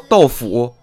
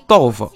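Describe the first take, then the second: First: Non-Beijing style, the second syllable has full tone. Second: Beijing style, the second syllable is light.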